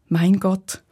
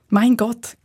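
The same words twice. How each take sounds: First: It is said in a calm, trusting tone. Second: It is said in a joyful, excited tone. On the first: The speaker relies on God for safety. "das ganz vertrauensvolle" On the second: The speaker is delighted by the beauty of creation. "klingt es da beispielsweise freudig"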